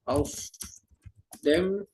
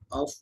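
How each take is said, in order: First: It is said as two separate full words. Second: It is contracted into one short word. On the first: This is the standard form for formal writing and exams. "Kayak contoh ada auf dem" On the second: This is colloquial slang, not for formal letters or exams. "Karena ini Umgangssprache atau biasa slang"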